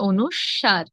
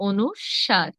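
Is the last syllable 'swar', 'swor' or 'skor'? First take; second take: swar; swar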